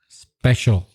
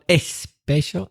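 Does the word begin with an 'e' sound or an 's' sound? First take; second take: s sound; e sound. First: The word begins directly with the s sound. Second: An extra 'e' vowel comes before the s. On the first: The speaker calls it right. "it's special" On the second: The speaker calls it wrong. "It's not especial"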